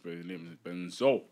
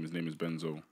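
First: The last syllable of Benzo is emphasized. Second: The last syllable of Benzo is not emphasized.

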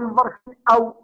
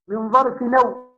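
First: The glottal stop is pronounced before the final word. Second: The glottal stop is dropped and the words run together. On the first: The speaker calls it wrong. "لا تقول من ظرف أو، لا" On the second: The speaker calls it right. "الهمزة هنا مسهلة"

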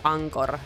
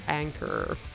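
First: The name is said with a Finnish accent. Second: The name is said with an English accent. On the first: "I keep pronouncing it in a very Finnish way" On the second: "Or Anchor in English"

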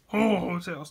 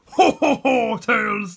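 First: It is said in a normal voice. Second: It is said in a Santa Claus voice.

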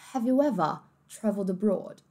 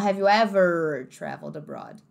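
First: British accent, the r in ever is dropped. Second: American accent, with a strong r in ever. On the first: "no inglês mais britânico" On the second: "No inglês americano"

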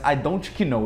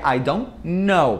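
First: A K sound is heard before the N. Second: No K sound is heard before the N. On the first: The speaker calls it wrong. "Muita gente já brincou de I don't know" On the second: The speaker calls it right. "Só que é I don't know"

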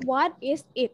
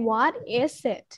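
First: The words are said separately without linking. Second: The s sound links into the following i. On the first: "ตามจริงหนูออกเสียงได้" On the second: "ถ้า S เชื่อมกับ I นะคะจะเป็น"

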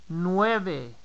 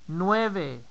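The two takes are said the same way.

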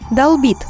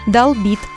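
First: The stress is on the first syllable. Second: The stress is on the second syllable. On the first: The speaker calls it wrong. "Как правильно? Долбит или долбит?" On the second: The speaker calls it right. "Ударение никогда не падает на корень... Поэтому говорить следует"

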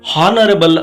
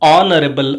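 First: The word begins with an audible h sound. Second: The word begins directly with a vowel sound. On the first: The speaker calls it wrong. "ಇಲ್ಲಿ ಹಾನರಬಲ್ ಅಂತ ನಾವು ಓದೋದಿಲ್ಲ" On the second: The speaker calls it right. "ಆನರಬಲ್ ಅಂತೇಳಿ ಪ್ರೊನೌನ್ಸಿಯೇಷನನ್ನು ಮಾಡ್ತಾ ಇದ್ದೇವೆ"

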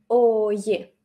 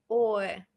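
First: A 'y' glide joins the two vowels. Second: The two vowels meet with no 'y' glide. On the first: The full, careful pronunciation. "este pequeño so- sonido y que está entre o y e" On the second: The relaxed form used in fast speech. "decir oe, oe, evitando este sonido y"

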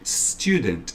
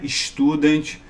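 First: The opening s is hissed and breathy. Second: The opening s is not hissed or breathy. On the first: The speaker calls it right. "Esse som bem assim, sopradinho assim" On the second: The speaker calls it wrong. "Não é student"

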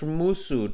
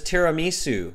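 First: The word is garbled with syllables run together. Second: The word is said clearly with all its syllables. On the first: The speaker calls it wrong. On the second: The speaker calls it right.

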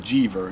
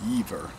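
First: It is read the way an English speaker would. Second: It is said the way native speakers say it. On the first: "I would say Jever, you know, I speak English" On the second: "but I think they pronounce it Jever"

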